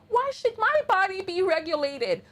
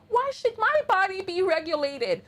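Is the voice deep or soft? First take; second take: soft; soft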